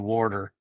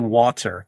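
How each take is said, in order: First: It is said in a Philadelphia accent. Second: It is said in the other speaker's accent. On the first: "here in Philly we say water" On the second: "how you say water"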